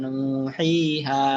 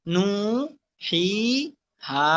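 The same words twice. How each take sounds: First: নু হি হা run together, vowels still held; joined pronunciation. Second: নু, হি, হা apart with pauses, vowels held; one piece at a time. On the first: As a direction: join নু হি হা into one word. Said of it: "এরপর উচ্চারণ করেন". (একসাথে নু হি হা উচ্চারণ) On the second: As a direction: break it up: নু... হি... হা. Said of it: "একটা একটা করে". (একটা একটা করে ভেঙে নু, হি, হা) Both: Shown as a demonstration.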